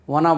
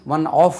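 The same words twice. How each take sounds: First: "of" linked to "One" with a v sound; correct "of". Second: "of" ending in f, like "off"; mispronounced "of" with a long breath of f; incorrect "of". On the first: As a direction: say "One of" as "wun-ov". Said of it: "V-க்கு உச்சரிப்பு வரணும்". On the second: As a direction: say "one of" as "one off". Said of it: "F உச்சரிக்கக்கூடாது அதில்". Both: Shown as a demonstration.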